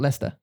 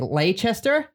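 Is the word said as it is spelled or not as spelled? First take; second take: not as spelled; as spelled. First: The word is not pronounced as it is written. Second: Every written letter of the word is pronounced. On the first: The speaker calls it right. "but it has actually pronounced" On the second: The speaker calls it wrong. "every time you ask someone how to say that, they would say"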